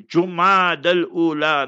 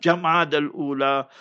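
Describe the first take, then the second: First: "Jumad al-Ula" with u in the first syllable; correct Jumad. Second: "Jamad al-Ula" with a in the first syllable; mispronounced Jamad. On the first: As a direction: say "Jumad al-Ula" opening on "joo". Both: Shown as a demonstration. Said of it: "learn to pronounce properly".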